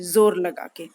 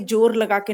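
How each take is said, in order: First: The first word begins with a buzzing z sound. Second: The first word begins with a plain j sound. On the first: The speaker calls it right. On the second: The speaker calls it wrong.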